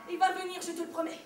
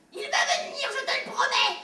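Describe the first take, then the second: First: Put-on soft, quiet reassurance to a child; soothing promise. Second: Higher, laughing parody of the promise; mocking repeat. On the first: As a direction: promise it gently, almost under the breath. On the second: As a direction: throw her words back with a sneering laugh. Brother mocks mother's promise.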